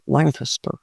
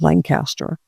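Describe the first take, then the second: First: It is said with a local southern pronunciation. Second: It is said with a northern pronunciation. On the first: The speaker calls it right. "That's how they say it down here" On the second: The speaker calls it wrong. "I don't say it right"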